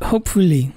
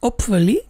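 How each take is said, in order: First: The starting h sound is pronounced. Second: The starting h sound is dropped. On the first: The speaker calls it wrong. "not hopefully" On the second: The speaker calls it right. "the H they do not say, so it's hopefully"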